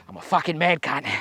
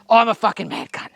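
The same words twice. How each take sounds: First: Quiet self-pump before the shot; self-hype. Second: Punchy boast to get ready; self-hype. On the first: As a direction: psych yourself up under your breath. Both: Real, not acted. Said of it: "and I told you I am".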